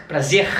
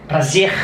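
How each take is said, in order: No difference in how they are said.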